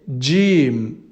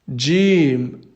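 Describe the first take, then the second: First: It begins with a 'dj' sound. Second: The same.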